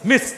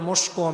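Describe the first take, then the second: First: The word ends on a consonant sound. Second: The word ends with an added vowel sound. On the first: The speaker calls it right. "আসল উচ্চারণটা হচ্ছে" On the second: The speaker calls it wrong. "আমাদের দেশে মানুষ বলে"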